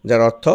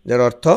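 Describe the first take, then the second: Both takes have the same delivery.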